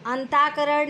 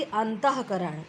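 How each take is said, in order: First: अंताकरण with long "taa", no h; visarga left out. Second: अंतःकरण with an audible h after "anta"; visarga sounded. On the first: Teacher citing the error, अंताकरण without visarga. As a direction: say अंताकरण smoothly without the breath after "ta". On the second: Teacher correcting the error, अंतःकरण with clear h. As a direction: say "antah-karan" for अंतःकरण. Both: Shown as a demonstration. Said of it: "नहीं बल्कि".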